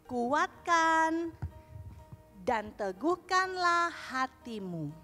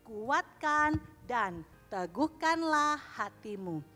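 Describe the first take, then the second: First: The verse is recited at a slower pace. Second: The verse is recited at a faster pace.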